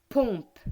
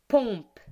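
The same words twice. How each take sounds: No difference in how they are said.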